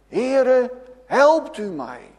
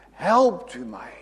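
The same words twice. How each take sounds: First: A crying plea, louder and higher; calling out for help. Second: Said in the usual way. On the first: Retold or imitated. Preacher voicing sinking Peter, a pleading loud cry. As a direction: cry out like a drowning man calling the Lord. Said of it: "Als zo'n schaap roept hij". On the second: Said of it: "bidden tot de Heere".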